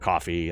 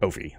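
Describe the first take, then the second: First: The first vowel sounds like in 'cough'. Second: The first vowel sounds like in 'go'. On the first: The speaker calls it wrong. "A lot of people pronounce it coffee" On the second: The speaker calls it right. "It's like no fee, Kofi"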